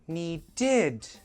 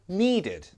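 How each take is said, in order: First: The last syllable is stressed and prominent. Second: The last syllable is weak and unstressed. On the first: The speaker calls it wrong. "you're stressing the end syllable and it's confusing" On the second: The speaker calls it right. "it's a very weak id. It's never stressed"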